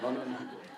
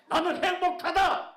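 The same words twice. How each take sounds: First: It is said in an angry tone. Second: It is said loudly and cheerfully.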